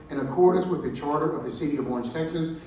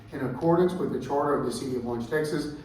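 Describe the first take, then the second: Both takes have the same delivery.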